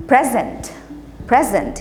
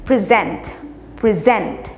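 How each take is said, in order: First: present with weight on the first syllable, PREZ-ent; stress on PREZ. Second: present with weight on the second syllable, pre-ZENT; stress on ZENT. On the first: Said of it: "पहला वाला P R E Z को हम stress करते हैं". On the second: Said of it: "ज़्यादा stress डालना चाहिए". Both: Shown as a demonstration.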